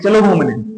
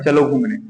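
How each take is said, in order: First: It is said in an angry tone. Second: It is said in a calm, neutral tone. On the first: "गुस्सा के बोलेंगे" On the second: "normal सी भाषा में"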